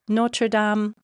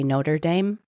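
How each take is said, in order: First: It is pronounced the French way. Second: It is pronounced the English way. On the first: The speaker calls it right. "do your best" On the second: The speaker calls it wrong. "Please don't say Notre Dame"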